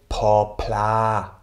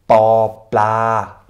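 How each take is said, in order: First: The consonants are said with an extra puff of air. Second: The consonants are said without an extra puff of air. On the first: "Wäre es die behauchte Version" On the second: "ist die unbehauchte Version"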